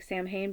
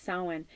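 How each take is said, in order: First: Samhain read as it looks, "Sam-hane"; Samhain as a literal spelling read, "Sam-hane"; spelled-out reading. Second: Samhain said "SAH-win"; Samhain corrected to "SAH-win"; correct pronunciation. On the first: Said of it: "it looks like Samhain, but it's pronounced". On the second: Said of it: "but it's pronounced Samhain". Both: Shown as a demonstration.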